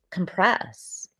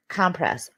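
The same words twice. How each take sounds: First: Compress with the beat on PRESS; stress on second syllable. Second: Compress with the beat on COM; stress on first syllable. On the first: Streamer offering the alternative reading, Compress stressed on the second syllable. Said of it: "Depending where you put the stress on the syllable". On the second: Streamer recalling the first-aid word, Compress stressed on the first syllable. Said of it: "Or you could say". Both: Shown as a demonstration.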